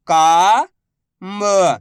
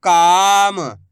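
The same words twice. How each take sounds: First: Very slow, each syllable drawn out. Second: Said in the usual way. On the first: Shown as a demonstration. Teacher sounding out a word for pupils, slow syllables. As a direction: spell the word out slowly for a child. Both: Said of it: "मैं किस तरीके से".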